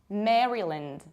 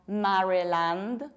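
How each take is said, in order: First: The last syllable is reduced, without a full A. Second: The last syllable has a full A vowel. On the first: The speaker calls it right. "We say Maryland" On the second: The speaker calls it wrong. "this is not Maryland. We don't have A"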